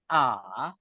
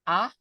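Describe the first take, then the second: First: The pitch dips down and then comes back up. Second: The pitch rises like calling out to someone. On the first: "yang ketiga baru A" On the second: "Nada dua itu kayak orang manggil, bukan bercengkok"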